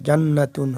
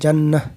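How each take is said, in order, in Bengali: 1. শেষের অংশটি 't' এবং একটি স্বরধ্বনি দিয়ে উচ্চারিত হয়। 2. শেষের অংশটি নরম 'h' ধ্বনি দিয়ে উচ্চারিত হয়। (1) "মিলায়া পড়ি আর একটার সাথে, তাহলে জান্নাতুন হবে" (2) "আর যদি ওয়াকফ করি তাহলে জান্নাহ"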